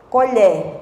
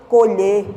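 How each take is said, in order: First: "Colher" with open final E, as in spoon. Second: "Colher" with closed final E, as in to pick. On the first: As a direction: say "Colher" as "ko-LYEH". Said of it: "mas a pronúncia é diferente?". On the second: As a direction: say "Colher" as "ko-LYAY", without glide. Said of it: "É diferente". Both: Shown as a demonstration.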